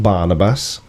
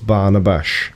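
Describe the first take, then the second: First: The name ends with a plain s sound. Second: The name ends with an sh sound. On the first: The speaker calls it wrong. "It's not Barnabas" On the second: The speaker calls it right. "In Hungary, it's Barnabash. Bash"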